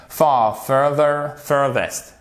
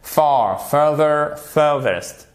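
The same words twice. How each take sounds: The two takes are said the same way.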